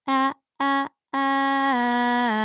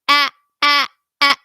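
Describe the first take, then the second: First: It is said in a moderate spoken voice. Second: It is said very harshly and intensely.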